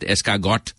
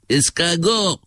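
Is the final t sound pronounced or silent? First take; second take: pronounced; silent. First: The final t sound is pronounced. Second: The final t sound is silent. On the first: The speaker calls it wrong. "not escargot" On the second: The speaker calls it right. "The tea is chowed up"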